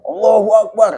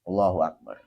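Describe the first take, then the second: First: It is shouted loudly, like at a protest. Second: It is said quietly and gently. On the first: It sounds like a street demonstration chant. The speaker calls it wrong. "Kayak demo Allahu akbar, jangan" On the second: It stays private so others nearby do not hear. The speaker calls it right. "Pelan-pelan aja"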